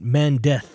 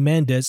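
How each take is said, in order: First: The final sound is a th sound. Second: The final sound is an s sound. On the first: "I say it with a TH sound" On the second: "instead of saying"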